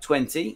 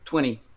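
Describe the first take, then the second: First: The middle T sound is clearly pronounced. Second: The middle T sound is dropped. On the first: "en anglais euh, britannique, on va avoir" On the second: "américain, on va faire disparaître le T"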